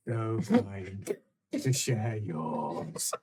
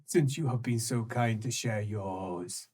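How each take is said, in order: First: Slow, low, savouring each word; slow sinister echo. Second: Low sly taunt; sinister creature voice. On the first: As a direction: drag out "So kind" slowly. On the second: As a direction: purr it out slyly. Creature repeats line. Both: Acted.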